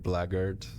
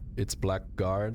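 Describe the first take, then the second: First: The word is said the accepted way. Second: The word is said the speaker's own way. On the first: This is the actual pronunciation. "apparently it is actually blackguard, but I refuse to pronounce it that way" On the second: The speaker prefers this pronunciation. "It's blackguard, surely"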